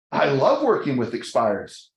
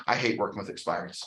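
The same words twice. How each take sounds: First: LOVE stressed with a falling tune; keen endorsement. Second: Low, soft, quick grumble; grumbled dislike. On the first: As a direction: lean on the word LOVE, at normal volume. Others' positive reply to the same statement. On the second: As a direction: mutter a quick complaint under your voice. Voicing own negative talk, then others' opposite. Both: Retold or imitated.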